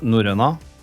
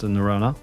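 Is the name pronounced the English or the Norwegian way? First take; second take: Norwegian; English. First: The name is pronounced the Norwegian way. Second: The name is pronounced the English way. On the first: This is how it is said at home. "In Norwegian, we call it" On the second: This is how it is said abroad. "here in the States, or I guess in most other markets, it's pronounced"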